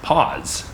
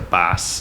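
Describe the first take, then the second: First: It starts with a clear P and ends in Z. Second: It starts with a soft B-like sound, ending in S. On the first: This is the mother's English way of saying it. "she enunciates the P mm-hmm. and the Z" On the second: This is the father's native way of saying it. "I hear the boss"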